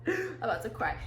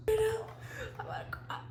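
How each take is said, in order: First: Said in the usual way. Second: High, slow, whispery squeak; about to cry. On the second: Real, not acted. Telling viewers she is overwhelmed, tearful squeak. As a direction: squeeze it out softly, choked with joy.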